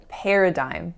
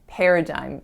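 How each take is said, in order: No difference in how they are said.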